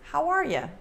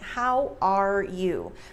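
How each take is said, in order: First: The words blend together with a reduced ending. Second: Every word is fully and separately enunciated. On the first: It sounds casual. The speaker calls it right. "the way we pronounce it makes it sound more casual" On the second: It sounds too formal. The speaker calls it wrong. "When it's enunciated like that, it sounds too formal"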